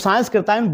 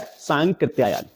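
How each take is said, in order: First: An s sound comes before the k. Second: No s sound comes before the k. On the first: The speaker calls it wrong. "सांस्कृत्यायन बोला जाता है लेकिन है नहीं" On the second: The speaker calls it right. "सांकृत्यायन होता है"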